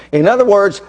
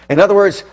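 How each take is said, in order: Both takes have the same delivery.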